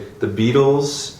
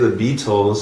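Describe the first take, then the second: First: It is said in the casual American way. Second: It is said in a careful, non-American way. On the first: This is how the speaker normally says it. "I say" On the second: The speaker does not normally say it this way. "I don't say"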